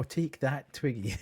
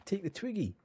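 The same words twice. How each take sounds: First: "Twiggy" stressed on the first syllable, TWIG-gy; corrected stress. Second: "Twiggy" stressed on the last syllable, twig-GY; wrong syllable stress. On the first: Gamer correcting himself, Twiggy stressed on its first syllable. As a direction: say "Twiggy" with the weight on "Twig", the way the word is normally said. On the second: Gamer reading the item name aloud, Twiggy stressed on its last syllable. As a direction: say "Twiggy" with the weight landing on "-gy". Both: Real, not acted. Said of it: "putting the emphasis on the wrong syllable".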